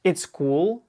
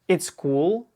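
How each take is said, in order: First: The verb is contracted into one quick syllable. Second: The verb is contracted into one quick syllable.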